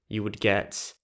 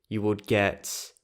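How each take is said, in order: The two takes are said the same way.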